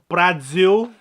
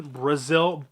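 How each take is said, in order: First: "Brazil" said loudly as "Brad-zil", tune rising; odd pronunciation. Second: Said in the usual way. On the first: Pretend. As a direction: punch out "Brazil" with an exaggerated d before the z. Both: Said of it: "why I'd say it like that".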